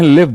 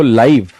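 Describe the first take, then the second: First: The vowel is a short ih sound. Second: The vowel sounds like the word eye. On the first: It is a verb. "इसी को जब हम बोलते हैं लिव" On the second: It is an adjective. "अगर आप इसको pronounce करते हो लाइव"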